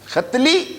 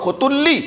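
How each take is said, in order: First: The name has two syllables with an 'a' vowel. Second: The name has three syllables with 'u' vowels. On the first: "दो तरह से पढ़ा जाता है, खतली"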